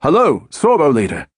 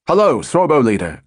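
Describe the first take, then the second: First: Put-on higher North London accent reply. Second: Lightly voiced radio call; a hint of a controller calling up; calling over radio. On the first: Howell answering the controller in a North London accent. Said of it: "Howell replied in his North London accent". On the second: Controller calling up the squadron leader, light radio call. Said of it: "called the controller at Middle Wallop". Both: A narrator's reading.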